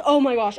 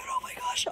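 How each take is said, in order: First: Unvoiced "Oh my gosh" at her usual pitch; whispered gush. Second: Much higher and softer oh my gosh; squeaky gush. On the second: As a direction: let "Oh my gosh" squeak up high and soft. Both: Real, not acted. Gushing over cute purchases.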